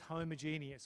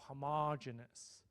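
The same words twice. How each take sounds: First: It is said in the non-American way. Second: It is said in the American way.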